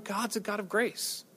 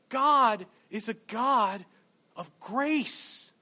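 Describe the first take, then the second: First: It is said in a casual, dismissive tone. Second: It is said in a grave, heartfelt tone. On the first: Grace is taken for granted. The speaker calls it wrong. "there's nothing wrong with the words there, but the tone is somewhat lacking" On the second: Grace is felt as profound. The speaker calls it right. "What we should say is this"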